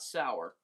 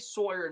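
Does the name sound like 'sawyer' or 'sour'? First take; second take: sour; sawyer. First: The name sounds like the word 'sour'. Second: The name sounds like the word 'sawyer'. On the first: "not Sour" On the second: "I would say Sawyer"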